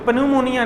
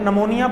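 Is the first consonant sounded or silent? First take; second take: sounded; silent. First: The word starts with a p sound. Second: The word starts without a p sound. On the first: The speaker calls it wrong. "लेकिन पन्यूमोनिया नहीं हम पढ़ते" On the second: The speaker calls it right. "जैसे नमोनिया पढ़ते हैं ना हम"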